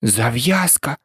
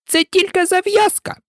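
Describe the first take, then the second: First: Lower, mild echo of the word; picking up the word. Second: Very high, indignant mouse squeal; piercing angry cry. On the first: Alice, ready to help, picks up the mouse's word, mildly. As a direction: take the word up in an everyday voice. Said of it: "підхопила Аліса". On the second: Mouse corrects Alice about the story, piercing and angry. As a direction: insist crossly at the top of the pitch. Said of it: "закричала миша пронизливо і дуже сердито". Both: A narrator's reading.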